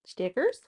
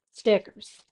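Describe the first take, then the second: First: "Stickers?" with a rising question tune. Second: Said in the usual way. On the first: Shown as a demonstration. Puzzling over the missing stickers, rising question. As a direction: ask "Stickers?" up at the end.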